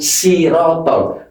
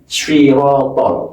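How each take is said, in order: First: It begins with a light, plain s sound. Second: It begins with a heavy, emphatic s sound. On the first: The speaker calls it wrong. "Kalau sirotol berarti berubah huruf sin" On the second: The speaker calls it right. "shirotol, bukan sirotol"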